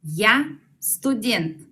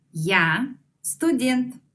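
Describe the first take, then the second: First: Я студент said very slowly, stress on я; very slow model. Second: Я студент very slowly with weight on студент; slow model, stress on студент. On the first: (muy despacio) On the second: (acento en студент) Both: Shown as a demonstration. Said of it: "en ruso debo decir".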